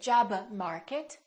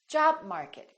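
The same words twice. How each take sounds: First: The b is released before the next word. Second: The b is held without release. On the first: The speaker calls it wrong. "So don't say" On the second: The speaker calls it right.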